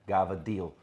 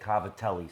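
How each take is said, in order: First: It is said clipped, with softened consonants. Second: It is said in full, with crisp consonants. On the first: "that's the way we said it" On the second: "I never said cavatelli"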